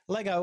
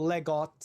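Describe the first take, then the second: First: The name is said with English pronunciation. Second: The name is said with Danish pronunciation.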